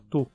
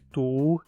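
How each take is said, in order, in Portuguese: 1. A vogal é curta. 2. A vogal é longa. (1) "o u acaba ficando curto" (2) "Em vez de"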